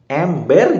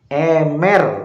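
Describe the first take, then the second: First: The middle 'b' sound is clearly pronounced. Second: The middle 'b' sound is left out. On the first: "kata ember" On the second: "Jadi B-nya itu hilang"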